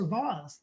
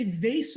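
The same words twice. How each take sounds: First: "vase" said VAHZ; broad ah and z sound in "vase"; fancy pronunciation. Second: "vase" said VAYSS; long ay in "vase", as in face; first pronunciation. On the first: Co-host offers the fancier option, "vase" as VAHZ. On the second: Co-host compares two ways of saying it, "vase" as VAYSS. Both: Shown as a demonstration. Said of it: "do you say vase or vase".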